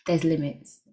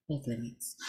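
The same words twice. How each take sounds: First: Said in the usual way. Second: There's limits dropped lower and much softer; quiet, lower murmured repeat of There's limits. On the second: Real, not acted. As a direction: let There's limits fall away softly under the breath.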